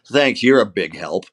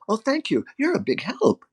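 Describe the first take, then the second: First: Understated sarcastic thanks; mild sarcasm. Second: Much higher, softer, taking it at face value; innocent sincere thanks. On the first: Shown as a demonstration. Actor shows American habit of not meaning it, sarcastic. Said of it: "we know that I don't mean it". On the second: Acted. Taiwanese listener taking sarcasm literally, innocent sincere thanks. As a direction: imitate naive, wholehearted gratitude. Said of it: "they will look at it and says".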